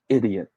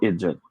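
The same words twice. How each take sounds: First: The word is said with a clear 'dee' sound. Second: The word is said with a 'jih' sound. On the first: The speaker calls it right. "This is pronounced as idiot" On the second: The speaker calls it wrong. "Hindi po idiot"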